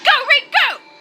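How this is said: It is said forcefully, with real feeling.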